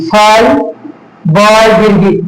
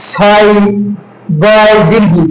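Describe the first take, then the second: The two takes are said the same way.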